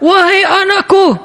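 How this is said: It is said harshly, as if angry.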